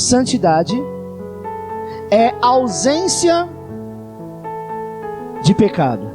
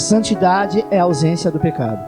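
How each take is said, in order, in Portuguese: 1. É dita em ritmo normal, sem pressa. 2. É dita muito rápido, em ritmo acelerado. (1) "repita comigo" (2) "Agora fala bem rápido"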